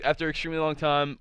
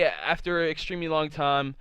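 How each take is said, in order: First: Sped-up retelling; fast. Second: Said in the usual way. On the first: Shown as a demonstration. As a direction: rush through the phrase quickly. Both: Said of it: "to make this go a little bit faster".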